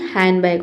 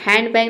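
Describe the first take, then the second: First: हैंडबैग with no D, "han-bag"; silent D. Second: हैंडबैग with a clear D, "hand-bag"; D sounded. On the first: Teacher gives the correct form, हैंडबैग with silent D. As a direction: drop the D in हैंडबैग. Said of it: "होता है". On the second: Teacher shows what it is not, हैंडबैग with sounded D. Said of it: "नहीं होता है". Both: Shown as a demonstration.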